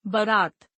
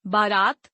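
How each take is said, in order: First: बारात said as "barat" with a short first a; misspelled reading. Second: बारात said as "baaraat" with a long first aa; correct reading. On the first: Teacher reads the misspelled form बारात. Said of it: "अशुद्ध वर्तनी". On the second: Teacher reads the correct form बारात. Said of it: "शुद्ध वर्तनी". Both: Shown as a demonstration.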